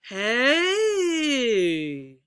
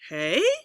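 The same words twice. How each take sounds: First: The pitch rises and then falls. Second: The pitch rises on the word. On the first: "Let's do our double" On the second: "We'll do a rising"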